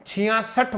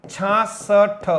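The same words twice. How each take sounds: First: छियासठ with the full chhiya sound; छियासठ spoken clearly as the right form; छियासठ as the teacher's correction; correct pronunciation. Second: छासठ drawn out slowly as the mistaken form; very slow छासठ showing the common error; छासठ stretched as the mistake; wrong pronunciation demo. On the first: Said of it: "छियासठ बोलना पड़ेगा". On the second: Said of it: "ऐसा बोल देते हैं". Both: Shown as a demonstration.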